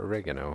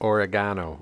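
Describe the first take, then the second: First: The word is pronounced the US way. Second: The word is pronounced the non-US way.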